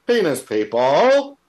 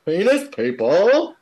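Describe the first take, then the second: First: Loud, slow Aussie mock shout; Australian impression. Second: Australian impression. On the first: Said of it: "that's a great impression". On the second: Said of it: "this is the Australian guy". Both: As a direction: ham up the Aussie bloke.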